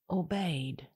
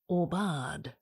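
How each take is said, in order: First: It sounds like the English word obeyed. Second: It is said with a French pronunciation. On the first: The speaker calls it wrong. "that's not how you pronounce it" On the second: The speaker calls it right. "It's French, don't you know? It's pronounced aubade"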